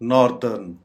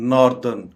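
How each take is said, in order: Both takes have the same delivery.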